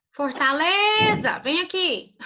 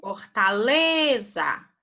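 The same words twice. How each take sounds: First: Fortaleza called out higher and slowly like a cross mother; angry mom calling. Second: Fortaleza stretched out slowly syllable by syllable; slow, drawn-out word. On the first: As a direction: call the kid in like an angry mom. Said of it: "igual a mãe chama vocês? Quando ela tá brava?". (chamando como mãe brava, mais agudo e devagar) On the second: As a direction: draw out Fortaleza slowly to find the stressed syllable. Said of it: "Lembra que eu ensinei vocês a chamarem a palavra". (Fortaleza dita bem devagar, sílaba por sílaba) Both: Shown as a demonstration.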